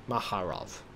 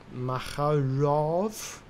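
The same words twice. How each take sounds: First: Maharov. said low, falling, settled; stating Maharov. with a final fall; falling tune. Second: Maharov? slow with a rising question; asking Maharov? unsure, pitch rising; questioning tune. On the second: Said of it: "Mahaz-, Maharov?". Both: Real, not acted.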